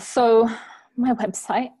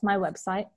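First: It is said hesitantly, without confidence. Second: It is said firmly, with confidence.

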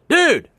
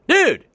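First: It sounds like calling someone over. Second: It sounds like calling someone over.

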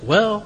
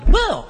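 First: The word is said in a disgusted tone. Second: The word is said in an excited tone. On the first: The speaker is repelled by something. "or you can be disgusted" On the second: The speaker is thrilled about something. "You can be excited"

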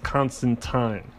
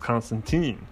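First: The name ends with a British 'tyne' sound. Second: The name ends with an American-style ending. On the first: "the Brits pronounce it as Constantine" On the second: "us Yanks, or Americans, we pronounce it as Constantine"

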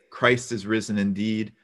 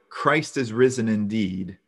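Both takes have the same delivery.

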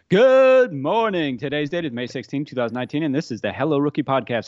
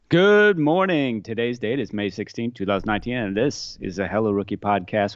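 First: It is said with high energy. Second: It is said with low energy.

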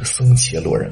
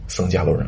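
First: The second syllable is pronounced qie. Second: The second syllable is pronounced jia. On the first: This is the older reading. "而不是僧伽罗人" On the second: This is the usual reading today. "现在一般念作僧伽罗人"

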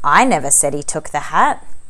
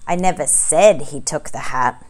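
First: The word 'never' is stressed. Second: The word 'he' is stressed.

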